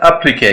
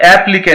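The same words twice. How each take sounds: First: "एप्लीके" with a schwa start, weight on plee; stress on P. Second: "एप्लीके" with a full A at the start; wrong pronunciation. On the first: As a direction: weaken the first vowel of "एप्लीके", push the p. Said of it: "पी पे stress है". ("एप्लीके" में पी पर ज़ोर, शुरू में हल्का अ) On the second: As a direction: open "एप्लीके" on a strong sheep sound. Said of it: "एप्लीके नहीं होगा". ("एप्लीके" का गलत उच्चारण, शुरू में पूरा ऐ) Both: Shown as a demonstration.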